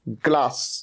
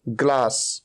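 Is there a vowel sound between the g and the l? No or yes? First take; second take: no; no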